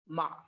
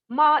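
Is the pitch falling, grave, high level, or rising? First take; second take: grave; high level. First: The pitch stays low and grave. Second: The pitch stays high and level. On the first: It means horse. "with grave pitch" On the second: It means dog. "with high level pitch"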